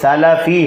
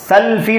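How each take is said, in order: First: A short vowel is said between l and f. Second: No vowel is said between l and f. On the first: The speaker calls it right. "लाम के ऊपर भी ज़बर है" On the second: The speaker calls it wrong. "सल्फी नहीं है। लाम पर ज़बर है, सुकून नहीं है"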